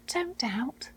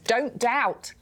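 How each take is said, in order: First: It is said in a gentle, reassuring tone. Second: It is said in a stern, commanding tone. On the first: It is comfort from someone close by. "But what if he's saying" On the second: It is a rebuke or command. "So often we think he says"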